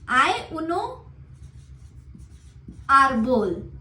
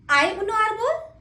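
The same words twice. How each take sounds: First: The voice falls at the end, as a statement. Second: The voice rises at the end, as a question.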